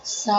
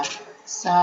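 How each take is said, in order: First: Long, strongly intoned note; forceful Sa. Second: Softly intoned, held note. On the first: Teacher showing students a sound that carries far, forcefully. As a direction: sing the syllable out firmly and sustain it. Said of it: "जोर से बोला". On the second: Teacher showing students a sound that won't carry far, softly. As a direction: sing the syllable gently, held back. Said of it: "सा को धीरे से बोला". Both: Shown as a demonstration.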